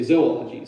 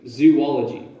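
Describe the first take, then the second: First: The first syllable does not sound like zoo. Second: The first syllable sounds like the word zoo. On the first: The speaker calls it right. "You would say zoology" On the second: The speaker calls it wrong. "you might say zoo, but you probably wouldn't say zoology"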